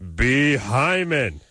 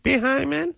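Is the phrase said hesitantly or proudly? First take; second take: proudly; hesitantly. First: It is said proudly and with confidence. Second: It is said hesitantly, without pride. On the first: The speaker calls it right. "It's a noble word. Say it with pride" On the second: The speaker calls it wrong. "They're like"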